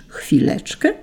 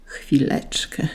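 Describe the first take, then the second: First: High, rising, incredulous quote; irritated echo. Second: Slow, soft groaned word; angel's groan. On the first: Saint Peter quoting the angel's excuse, irritated disbelief. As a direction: throw the angel's word back as a question. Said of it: "zirytował się święty Piotr". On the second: An angel asking Saint Peter to wait, soft groan. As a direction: groan it out quietly, drawn out. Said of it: "stęknął jeden z aniołów". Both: A narrator's reading.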